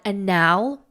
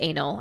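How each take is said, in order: First: The word is pronounced in an unusual, altered way. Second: The word is pronounced in its ordinary way. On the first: The word is disguised so the video is not flagged. "I was just trying to pronounce it in a different way" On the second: The word is said openly as it really is. "it means anal"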